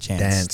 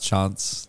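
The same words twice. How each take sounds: First: It is said with a general Australian pronunciation. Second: It is said with an Adelaide pronunciation. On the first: "But everywhere else in Australia, they go" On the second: "I know in Adelaide they pronounce... That's how they pronounce it"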